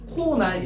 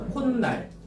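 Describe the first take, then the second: First: No extra n sound is added after ko. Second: An extra n sound is added after ko. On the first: The speaker calls it wrong. "코날 이러지 말고" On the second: The speaker calls it right. "니은 소리가 덧난단 말이야"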